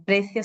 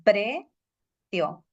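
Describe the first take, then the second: First: Said in the usual way. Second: "precio" slowly as pre... cio; two separate syllables. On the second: Shown as a demonstration. Teacher dividing the word, two-syllable "precio". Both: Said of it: "precio se divide con".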